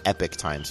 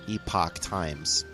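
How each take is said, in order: First: The first word sounds like 'epic'. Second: The first word sounds like 'epoch'. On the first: The speaker calls it wrong. "Not Epic Times, people always say it wrong" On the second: The speaker calls it right.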